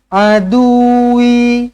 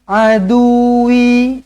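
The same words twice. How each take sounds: The two takes are said the same way.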